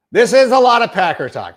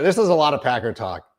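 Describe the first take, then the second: First: "This is a lot of Packer talk" said higher and louder, mock exasperated; louder repeat. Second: Said in the usual way. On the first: Real, not acted. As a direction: raise "Packer talk" in loud self-mocking protest. Repeats line, second louder.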